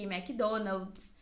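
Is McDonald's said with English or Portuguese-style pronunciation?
Portuguese. It is said with a Portuguese pronunciation. The brand name is fitted to the language being spoken. "pra ficar no mesmo sistema fonético daquilo que tu tá falando"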